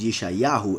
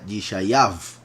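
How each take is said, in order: First: The name ends with a 'hu' vowel sound. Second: The name ends with a 'v' consonant sound. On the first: The speaker calls it right. "it is pronounced as a vowel" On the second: The speaker calls it wrong. "not as a consonant"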